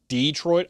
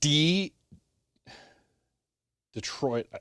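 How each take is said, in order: First: The first syllable is short and plain. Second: The first syllable is drawn out and overstressed. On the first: The speaker calls it right. "Detroit is perfectly acceptable" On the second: The speaker calls it wrong. "over pronouncing pronouncing the uh the first part of it"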